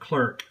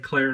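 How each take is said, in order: First: The word ends with a clear k sound. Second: The word ends without a final k sound. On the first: The speaker calls it wrong. "I was saying it wrong for a long time" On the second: The speaker calls it right. "the last C in the brand is silent"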